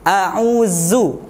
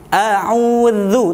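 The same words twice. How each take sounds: First: The middle consonant is a buzzing 'z' sound. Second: The middle consonant is a soft 'th' sound. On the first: The speaker calls it wrong. "tidak boleh a'udzu. Nah, itu salah. A'udzu nanti berubah menjadi huruf zai" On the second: The speaker calls it right. "ujung lidah bertemu dengan ujung gigi seri atas"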